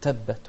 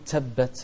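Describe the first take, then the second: First: The t sounds release moderately without extra hiss. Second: The t sounds release with an added s-like hiss. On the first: The speaker calls it right. "نقول تبت" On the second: The speaker calls it wrong. "ما نطلع معاها سين"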